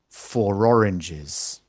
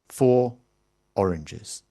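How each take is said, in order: First: An r sound links the two words together. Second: The words are said separately with no linking sound. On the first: "you hear a little r" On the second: "you almost never hear those words pronounced like that"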